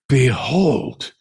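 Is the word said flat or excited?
excited. It is said with excited exclamation.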